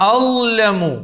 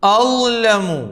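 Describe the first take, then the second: Both takes have the same delivery.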